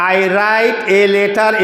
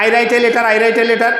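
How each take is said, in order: First: "I write a letter" very slow, each word apart, hard t sounds; slow local English. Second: "I write a letter" quick and linked, t softened, run together; quick joined-up "I write a letter"; fast native English. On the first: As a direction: say "I write a letter" slowly, one word at a time, the way natives don't. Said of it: "এইভাবে ওরা উচ্চারণ করে না". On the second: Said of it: "ওরা কি বলে". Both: Shown as a demonstration.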